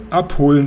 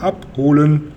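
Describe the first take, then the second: First: "Abholen" repeated firmly, a little louder; emphatic repeat. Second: "abholen" stretched out, syllable by syllable; drawn-out emphatic repeat. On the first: Policeman repeating for the inspector on the phone, emphatic. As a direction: say "Abholen" again for someone who misheard. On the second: Policeman to inspector who misheard, insistently drawn out. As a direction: spell out "abholen" slowly for a poor listener. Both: A narrator's reading.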